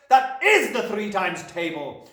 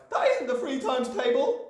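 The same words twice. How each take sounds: First: Loud, slow, "is" hammered; Trunchbull contradicting. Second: Put-on high boyish cry, "isn't" as the main word; Wilfred protesting. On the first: Headmistress correcting Wilfred, loud with "is" stressed hard. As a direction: insist angrily with heavy stress on "is". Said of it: "shouted the Trunchbull". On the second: Wilfred objecting to the headmistress, high cry stressing "isn't". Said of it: "Wilfred cried". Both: A narrator's reading.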